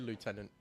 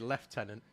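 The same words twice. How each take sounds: First: The first syllable sounds like 'loo'. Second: The first syllable sounds like 'left'. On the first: This is not how it is said in Britain. The speaker calls it wrong. "we don't say lieutenant in, in Britain" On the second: This is the British way of saying it. The speaker calls it right. "it's left"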